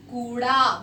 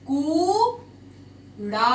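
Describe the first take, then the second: First: Said in the usual way. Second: कूड़ा stretched very slowly with a long ऊ; drawn-out demo word. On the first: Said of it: "कूड़ा मतलब आपका". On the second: Shown as a demonstration. Teacher modelling कूड़ा for students, very slowly. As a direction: hold the ऊ in कूड़ा. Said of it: "जैसे यहाँ पर हमारा शब्द बना".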